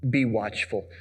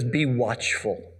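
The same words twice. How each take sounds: First: Said in the usual way. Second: Slow emphatic. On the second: Shown as a demonstration.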